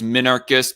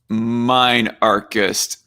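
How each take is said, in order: First: The first syllable sounds like 'min'. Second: The first syllable sounds like 'mine'. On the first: It is the standard form. The speaker calls it right. "more properly pronounced as minarchist" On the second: It sounds tougher. The speaker calls it wrong. "I find the pronunciation of minarchist to be a little bit more badass"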